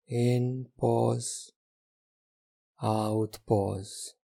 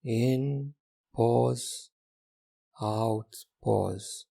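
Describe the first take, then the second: No difference in how they are said.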